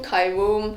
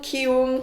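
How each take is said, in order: First: The first syllable sounds like 'kai'. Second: The first syllable sounds like 'kee'. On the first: This is how another broadcast said the name. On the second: This is the Korean form of the name.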